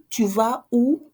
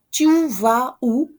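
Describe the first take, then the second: First: Said in the usual way. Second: Tu vas où? said slowly and loudly, each word clear; slow model question. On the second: Shown as a demonstration. Teacher modelling Tu vas où? slowly for learners.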